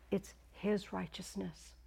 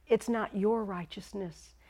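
First: "his" set apart, slow and softer; hushed, deliberate weight on "his"; stress on HIS. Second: "your" leaned on, slow and firm; measured rebuke with weight on "your"; stress on YOUR. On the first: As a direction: slowly correct it, leaning on "his". Contrasts his with your. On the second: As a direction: slowly deny it, pointing up "your". Contrasts your with his. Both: Retold or imitated.

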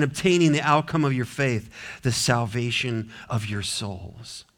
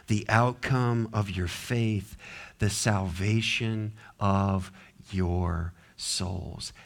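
First: Said in the usual way. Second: Slow, low, hushed scripture reading; soft and weighty, with pauses between phrases; deliberate rereading. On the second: Shown as a demonstration. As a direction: read it again slowly, letting each phrase sink in. Verse reread slowly for weight.

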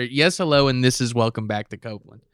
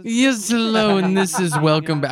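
First: Said in the usual way. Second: Pitched-up parody of the host saying Yes, hello; hammed-up imitation of the video host; mocking the host's greeting. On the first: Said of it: "I think he's saying". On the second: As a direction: squeak out his greeting high. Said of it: "This guy just has a crazy voice".

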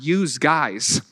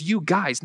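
First: "use guys", with a z ending "use", slow; regional "youse". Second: Said in the usual way. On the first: Shown as a demonstration. Preacher contrasting local phrase with his own, slow "use guys". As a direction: stretch out "use guys" as "yooz guys". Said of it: "not use guys". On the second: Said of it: "I thought it was you guys".

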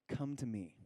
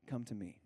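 First: Soft, tender call; gentle invitation. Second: Softer, tender come to me; softer invitation. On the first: Pastor voicing Jesus to the weary, softly tender. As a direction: invite them in quietly. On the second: Pastor repeating Jesus' call, even softer and tender. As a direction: draw them close softly. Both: Acted.

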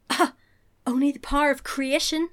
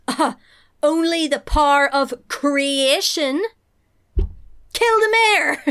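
First: Lightly reprised villain line; a milder, higher echo of an evil overlord; Dark Lord. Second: Drawn-out villainous line rising to a yelled order; grand, loud evil overlord erupting; Dark Lord. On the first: Retold or imitated. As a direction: quote the villain with a touch of menace. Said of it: "Like in the Dark Lord". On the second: Acted. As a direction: boom it like an outraged dark lord. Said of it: "And the Dark Lord goes".

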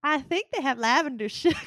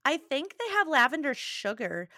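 First: Teasing Midwest accent imitation, laughing. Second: Said in a Midwest accent; casual Midwest accent slip. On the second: Real, not acted. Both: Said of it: "I just said that with a Midwest accent".

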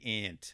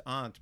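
First: Aunt said with a flat "a", like ant. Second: Aunt said with a broad "ah" vowel, ahnt. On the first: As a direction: say aunt to rhyme with pant. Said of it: "But I think the proper way is aunt". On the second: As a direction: say aunt with an open "ah", not like ant. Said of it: "the proper way is aunt because there's a U in it". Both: Shown as a demonstration.

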